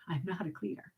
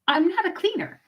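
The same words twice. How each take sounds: First: Much softer, near-whispered aside; hushed. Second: Said in the usual way. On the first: Real, not acted. Hiding the admission from her husband at home, hushed. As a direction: say it so the husband won't hear.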